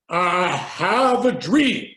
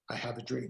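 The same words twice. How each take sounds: First: It is said with expressive, building vocal tonality. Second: It is said flatly, without vocal build.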